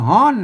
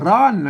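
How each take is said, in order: First: It is said in the Northern Thai way. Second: It is said in the Central Thai way. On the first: "อันเมืองก็ว่าฮ้อน" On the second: "อันไทยก็ว่าร้อน"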